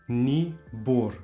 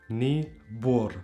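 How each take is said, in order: No difference in how they are said.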